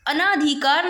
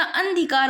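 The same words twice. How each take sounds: First: "अनाधिकार" with an added long aa after n; rejected pronunciation. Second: "अंधिकार" without a long aa after n; corrected pronunciation. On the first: Teacher showing students the error, "अनाधिकार" with long naa. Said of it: "अनाधिकार नहीं होता". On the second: Teacher giving the correction, "अंधिकार" with no long naa. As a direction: keep "अंधिकार" short before dhi. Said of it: "अंधिकार होता है". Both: Shown as a demonstration.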